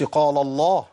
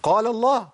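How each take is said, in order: First: "قال الله" as "qaalo-llah", both lams thick; "قال الله" wrongly heavy throughout. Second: "قال الله" higher, light "la" in "قال", heavy "الله"; raised-pitch "قال الله", thin lam then thick. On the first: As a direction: darken the end of "قال" into "الله". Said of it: "ما قلتش". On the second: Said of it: "وجي بعديها لام لفظ الجلالة المفخمة". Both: Shown as a demonstration.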